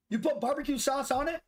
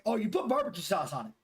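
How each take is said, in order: First: "put" pitched higher, ending on a rising question; disbelieving question. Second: Said in the usual way. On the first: Real, not acted. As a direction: repeat it back in surprised disbelief, "put" up high.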